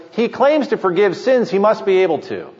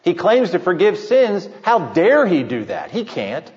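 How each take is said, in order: First: Higher, wondering rise on "He claims to forgive sins"; open-minded conclusion. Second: Scoffing Pharisee. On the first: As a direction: voice it as a willing believer, not a critic. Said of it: "The first answer, A". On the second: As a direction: dismiss him like a sneering critic. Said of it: "the Pharisees would always choose B". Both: Retold or imitated.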